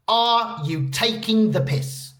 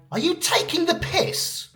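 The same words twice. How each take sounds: First: Slow, measured delivery of the phrase; slow model phrase. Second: High, squeaky-pitched mock disbelief; incredulous. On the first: Shown as a demonstration. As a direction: present it slowly for learners. Introduces the phrase for learners. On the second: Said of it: "when something sounds ridiculous, unfair, or unbelievable".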